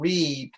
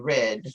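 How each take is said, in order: First: The vowel is long, like in 'reed'. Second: The vowel is short, like in 'red'. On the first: The action is present or future. "I will read an article" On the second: The action has already happened. "If it's past tense"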